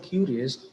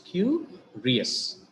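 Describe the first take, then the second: First: Said in the usual way. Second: "curious" in two parts, a high "cu", then "rious"; split into syllables. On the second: Shown as a demonstration. Teacher counting two syllables, "curious" split as cu, rious. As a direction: break "curious" after "cu" with a pause. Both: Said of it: "we have got two syllables".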